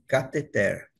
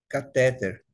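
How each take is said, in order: First: The stress is on the last syllable. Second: The stress is on the middle syllable. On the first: This is the original form of the word. "o modo original da palavra" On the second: This is the common everyday usage. "como é mais falado... como termo paroxítona"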